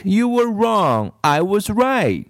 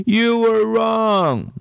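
First: Put-on high, slow, smug little-girl gloat; triumphant bratty child, slow and high. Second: High, slow, teary whine; little girl sobbing, drawn-out and high. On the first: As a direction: rub it in like a know-it-all child. Kathy voiced high. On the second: Acted. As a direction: wail it through tears like a hurt child. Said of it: "she sobbed".

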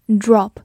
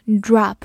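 First: "Drop" with a short rounded O. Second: "drop" with an open American "ah" vowel; American pronunciation. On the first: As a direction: say "Drop" with the short O vowel as in British English. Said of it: "字母O发短音O". (“Drop”中的O发短音“哦”) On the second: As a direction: say "drop" like "drahp", mouth wide open. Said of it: "美式发音也可以读作drop". (美式“drop”，O读成开口的“啊”) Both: Shown as a demonstration.

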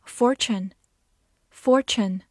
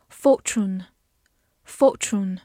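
First: American "fortune" with an r in "for"; American pronunciation. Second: Slow British "fortune", no r in the first syllable; non-rhotic British "fortune", drawn out; British pronunciation. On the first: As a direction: say "fortune" the American way, r-coloured first syllable. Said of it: "美式发音". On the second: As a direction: say "fortune" slowly in a British accent. 美式发音. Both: Shown as a demonstration.

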